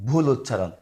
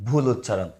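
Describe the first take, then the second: Both takes have the same delivery.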